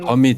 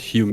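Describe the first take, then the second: First: The word starts with a 'hoh' sound. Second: The word starts with a 'hyoo' sound. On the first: The speaker calls it right. "Homid, not humid" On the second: The speaker calls it wrong. "not humid"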